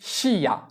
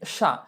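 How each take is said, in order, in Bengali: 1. i ধ্বনিটি উচ্চারিত হয়, তাই দুটি শব্দাংশ হয়। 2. i ধ্বনিটি নীরব থাকে, তাই একটি শব্দাংশ হয়। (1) "হওয়ার কথা ছিল কি শিয়া" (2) "কিন্তু হবে কি সা"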